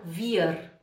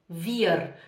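The two takes are said the same way.

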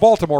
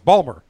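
First: It is said in a standard American accent. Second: It is said in a local Baltimore accent.

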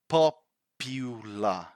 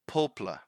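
First: The middle vowel is clearly pronounced. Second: The middle vowel is dropped, like 'poplar'. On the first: The speaker calls it right. "we need to pronounce that U here. So it's popular" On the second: The speaker calls it wrong. "this word is mispronounced fairly a major amount of time by students because what I hear is popular"

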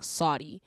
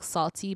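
First: The middle consonant is a soft d sound. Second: The middle consonant is a clear t sound. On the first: "Like S-A-W-D-Y" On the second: "It's just like salty"

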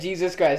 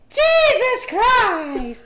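First: It is said in a normal voice. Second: It is said in a very high voice.

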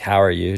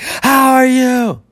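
First: It is said at a normal, calm volume. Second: It is said loudly, as if shouting. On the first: The message is typed normally. "what's supposed to be like" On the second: The message is accidentally typed in all capitals. "do caps lock"

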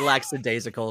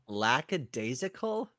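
First: The first syllable ends in a ks sound. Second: The first syllable ends in a plain k sound. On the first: The speaker calls it wrong. "That sounds dumb. I'm gonna say" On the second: The speaker calls it right. "take out the X and make it a CK in the middle"

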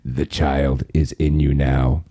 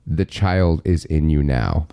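First: It is said in a put-on character voice. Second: It is said in his normal speaking voice.

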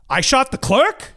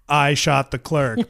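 First: It is said with questioning, incredulous intonation. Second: It is said flatly, like a plain statement. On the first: He is asking in disbelief. "the good New York Italian intonation. That made it clearly a question" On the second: It sounds like a confession. "Without any of the good New York Italian intonation"

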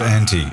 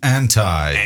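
First: The word is pronounced without an American accent. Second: The word is pronounced with an American accent. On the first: The speaker calls it right. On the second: The speaker calls it wrong.

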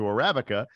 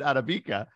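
First: The word has an Americanized pronunciation. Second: The word has its original, non-American pronunciation. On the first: This is the local, adapted way to say it. "we've Americanized it to Arabica" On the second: This is the actual, original way to say it. "that's the way to say it. That's the phrase"

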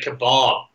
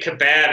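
First: Kebab is pronounced a non-Australian way. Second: Kebab is pronounced the Australian way. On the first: This is how the speaker used to say it. "instead of kebab" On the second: The speaker has picked up the local habit. "I've been down here too long. I'm saying kebab"

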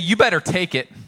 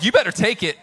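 First: It is said in a plain, neutral tone. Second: It is said with an irritated attitude.

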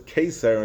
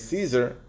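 First: The word begins with a k sound. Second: The word begins with an s sound. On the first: "the Gemara says Kesar" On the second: "they say Caesar"

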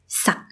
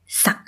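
Both takes have the same delivery.

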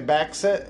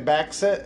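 First: The middle consonant sounds are swapped around. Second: The same.

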